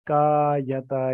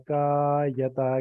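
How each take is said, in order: Both takes have the same delivery.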